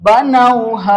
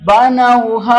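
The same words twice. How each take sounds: No difference in how they are said.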